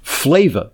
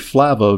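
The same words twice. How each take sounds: First: The first vowel sounds like in 'flavor'. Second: The first vowel sounds like in 'flavanol'. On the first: The speaker calls it wrong. "I was tempted in the past to pronounce it Flava, because it's got a lot of flavor" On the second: The speaker calls it right. "but it's actually Flava, which is named after its high flavanol content"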